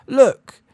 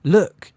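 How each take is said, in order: First: Very high, loud yell. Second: Loud rising bellow. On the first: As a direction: yell it right in her face. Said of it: "he yelled". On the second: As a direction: bellow it across the room. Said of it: "he bellowed". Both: A narrator's reading.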